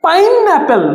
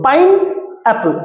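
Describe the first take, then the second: First: Said in the usual way. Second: "pineapple" slow, with a pause between pine and apple; syllable split. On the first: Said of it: "আমি যদি বলি". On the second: Shown as a demonstration. Teacher showing two parts to students, "pineapple" split by a pause. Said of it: "দুটো syllable এখানে".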